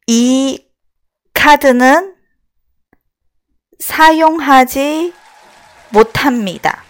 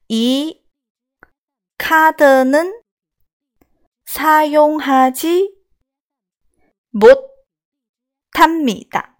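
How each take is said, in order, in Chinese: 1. 这句话说得快。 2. 这句话说得慢。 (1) "节奏稍微快一点啊" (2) "我再慢一点"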